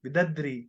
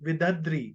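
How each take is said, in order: First: The word is said as vidadri. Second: The same.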